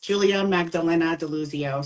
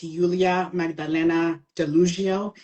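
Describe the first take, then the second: First: The name is pronounced the Italian way. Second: The name is pronounced the Polish way.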